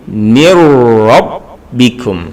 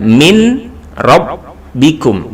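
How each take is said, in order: First: The n merges into a doubled r sound. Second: The n is pronounced clearly before the r. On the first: The speaker calls it right. "tapi mir rabbikum" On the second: The speaker calls it wrong. "Jadi bukan min rabbikum"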